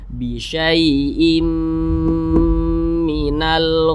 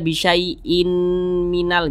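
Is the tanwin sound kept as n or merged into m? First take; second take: merged; kept. First: The n merges into a nasalized m sound. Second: A separate n sound comes before the m. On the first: The speaker calls it right. "tapi dimasukkan ke huruf mim" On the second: The speaker calls it wrong. "Jangan dibaca bisyai'in minal, jangan"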